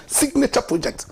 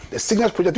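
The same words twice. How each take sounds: First: "signature" pointedly emphasised before "project"; stress on signature. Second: Said in the usual way. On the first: Real, not acted. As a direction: hit the word "signature" harder than "project". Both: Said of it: "Emphasis on the word signature".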